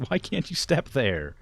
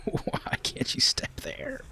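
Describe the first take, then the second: First: Loud, high exasperated question; baffled complaint at the screen. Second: Slow, defeated whisper. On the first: Frustrated at pathing. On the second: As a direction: breathe it out, worn down. Repeat after outburst. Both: Real, not acted.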